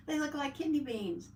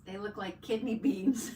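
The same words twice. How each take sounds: First: Said in the usual way. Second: Words broken by real laughter; laughing. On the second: Real, not acted. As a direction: say it while cracking up at the beans. Laughing at the bean emojis.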